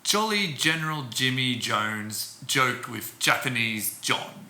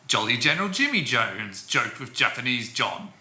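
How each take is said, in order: First: It is spoken slowly. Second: It is spoken quickly.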